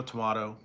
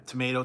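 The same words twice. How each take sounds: First: Tomato with a broad ah, to-MAH-to; tomato, the British-style to-MAH-to; tomato other way. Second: Tomato with a long ay, to-MAY-to; tomato, the American to-MAY-to; tomato one way. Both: Shown as a demonstration. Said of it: "Potato or potato?".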